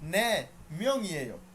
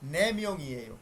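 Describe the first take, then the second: First: There is a short pause after the first word. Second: The words run together without any pause. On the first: Yes, people. "আপনি যদি একটু দম নেন" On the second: There are four people. "একসাথে পড়বেন"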